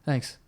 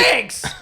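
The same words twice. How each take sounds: First: It is said quietly and casually. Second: It is said loudly and enthusiastically.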